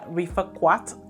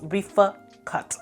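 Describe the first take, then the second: First: The second word is said with a 'kw' sound. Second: The second word is said with a plain 'k' sound. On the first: The speaker calls it wrong. "I pronounced the U the way it was spelled" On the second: The speaker calls it right. "It's Rifa Cut"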